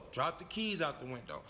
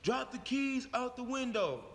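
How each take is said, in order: First: Said in the usual way. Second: Raised-pitch officer's order; police officer command. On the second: Acted. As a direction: instruct the driver like police at a stop. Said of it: "one of the officers said".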